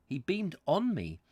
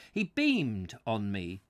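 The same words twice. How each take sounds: First: "on" picked out with higher pitch; stress on ON. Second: Said in the usual way. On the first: Shown as a demonstration. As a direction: lean on the word "on", querying the wording. Not at me.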